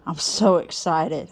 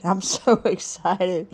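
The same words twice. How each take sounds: First: Said in the usual way. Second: Breaks into a laugh halfway through; laughing mid-word. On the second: Real, not acted. Greeting viewers at New Year, laughing through it. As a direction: let a real laugh slip in before excited.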